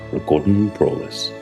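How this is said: It is said with a husky American accent. The speaker calls it right. "aquele sotaque americano, pôr a voz mais, mais rouca"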